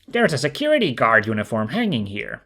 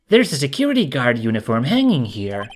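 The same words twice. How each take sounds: First: It is said in Phoenix's voice. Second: It is said in another character's voice.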